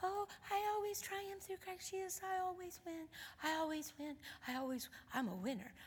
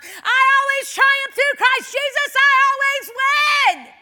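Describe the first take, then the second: First: Tiny high, very soft voice; timid little confession, barely voiced; real mousy. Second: All-out victorious yell, every word stretched; shouting it out. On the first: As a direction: squeak it out softly like a mouse. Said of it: "she started off real mousy". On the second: Acted. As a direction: bellow the verse in triumph. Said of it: "I shouted out of my mouth".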